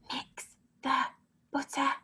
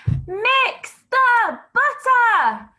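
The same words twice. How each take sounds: First: It is said softly, in a whisper. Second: It is said loudly, in a shout. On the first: "Whisper it" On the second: "Shout it"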